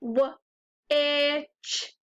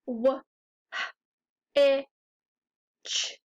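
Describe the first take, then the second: First: "w, i, ch" as separate sounds, no H; sounded out, silent H. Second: "w, h, i, ch" as separate sounds, H puffed; sounding it out. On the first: Teacher showing the H is silent, "w, i, ch" sounded out. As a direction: say "w, i, ch" sound by sound, leaving the H out. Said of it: "but the H is silent". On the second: Teacher sounding out a tricky word, "w, h, i, ch" one sound at a time. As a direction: say "w, h, i, ch" sound by sound, pausing between each. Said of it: "When you sound it out". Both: Shown as a demonstration.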